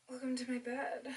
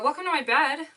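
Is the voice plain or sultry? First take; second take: sultry; plain. First: It is said in a sultry, seductive voice. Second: It is said in a plain, ordinary voice.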